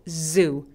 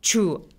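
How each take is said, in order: First: It starts with a buzzing 'z' sound. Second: It starts with a 'j' sound. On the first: The speaker calls it right. "연속적인 소리가 나야만 합니다" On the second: The speaker calls it wrong. "혀가 천장에 지읒처럼 주라고 닿으면 안 되고요"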